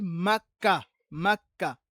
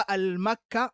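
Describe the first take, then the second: First: "Makka" loud, slow, split as mak-ka; correct form without article. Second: "al-Makka", with "al" joined before Makka; wrong form with article. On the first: Teacher correcting pupils' homework, emphatic syllable-by-syllable "Makka". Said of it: "On dit Makka". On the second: Teacher showing pupils the mistake, emphatic wrong form "al-Makka". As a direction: say "al-Makka" loudly, article sounded first. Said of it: "on ne dit pas". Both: Shown as a demonstration.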